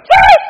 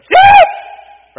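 First: Huge high yell, laughing into it; shepherd calling out. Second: Huge high yell across the hills; shepherd calling out. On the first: Preacher repeats the shepherd's call for the recording, huge high laughing yell. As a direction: bellow it high and loud again with a laugh. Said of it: "that's a good voice". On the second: Preacher demonstrating how the shepherd calls his lost sheep, huge high yell. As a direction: bellow it way up high and loud. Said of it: "the way I tell the story is". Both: Shown as a demonstration.

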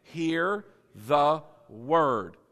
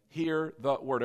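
First: "Hear the word" drawn out, each word separate; slow emphatic repetition. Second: Said in the usual way. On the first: Shown as a demonstration. Preacher has everybody say it, slow and emphatic. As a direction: stretch "Hear the word" very slowly for the crowd. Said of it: "Say it again". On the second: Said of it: "here's the words again".

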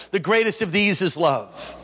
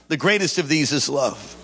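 First: Said in the usual way. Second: "greatest" leaned on, lower and measured; preacher echoing the verse lower; lower emphatic echo. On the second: Shown as a demonstration. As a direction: repeat it lower to let it sink in.

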